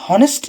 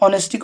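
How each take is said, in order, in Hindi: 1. इस शब्द की शुरुआत में h की आवाज़ बोली जाती है। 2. इस शब्द की शुरुआत एक स्वर से होती है, h मूक है। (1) "हनेस्टी नहीं कह" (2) "ऑनेस्टी कहसु एच साइलेंट"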